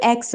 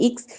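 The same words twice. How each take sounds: First: "एक्स" said as "eks", open e; "ex" sound. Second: "एक्स" said as "iks", short i; "ix" sound. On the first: Teacher contrasting here with there, "एक्स" pronounced "eks". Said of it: "यहाँ पे एक्स". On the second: Teacher contrasting there with here, "एक्स" pronounced "iks". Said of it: "वहाँ पे एक्स". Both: Shown as a demonstration.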